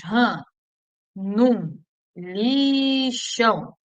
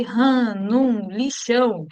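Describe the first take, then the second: First: Slow, stretched-out "ran, num, lixão"; joining the dots. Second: Said in the usual way. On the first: Shown as a demonstration. Teacher linking letters into a memory phrase, slowly drawn out. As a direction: draw out "lixão" on a long first syllable. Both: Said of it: "é só você ligar os pontinhos".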